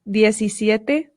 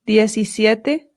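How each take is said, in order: Both takes have the same delivery.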